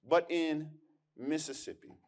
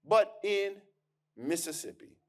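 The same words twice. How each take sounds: First: "Mississippi" dropped softer and falling; hushed repeat for weight. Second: Said in the usual way. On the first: Shown as a demonstration. Historian to audience, repeating softly for emphasis.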